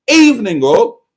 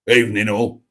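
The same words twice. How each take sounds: First: It is said with lots of enthusiasm. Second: It is said in a toned-down way.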